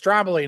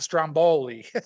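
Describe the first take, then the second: First: The stress is on the first syllable. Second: The stress is on the second syllable. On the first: The speaker calls it right. "It's Stromboli" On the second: The speaker calls it wrong. "not Stromboli"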